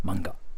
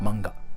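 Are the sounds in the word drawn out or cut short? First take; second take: cut short; cut short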